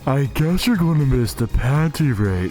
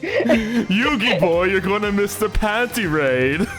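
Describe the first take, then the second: First: It is said in a Patrick impression. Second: It is said in a Pegasus impression.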